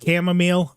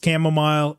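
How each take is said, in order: First: The word is pronounced the way it is spelled. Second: The word is pronounced in the standard way. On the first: This is the habitual way the speaker says it. The speaker calls it wrong. "I've always said chamomile" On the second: This is the accepted pronunciation. The speaker calls it right. "I know it's chamomile"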